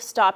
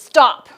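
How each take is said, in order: First: The word is said softly without emphasis. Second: The word is said loudly with strong emphasis. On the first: The speaker calls it wrong. "Don't do the stop" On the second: The speaker calls it right. "Use your voice with emphasis"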